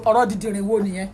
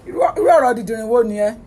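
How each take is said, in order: First: Said in the usual way. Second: Louder fast repeat. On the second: Real, not acted.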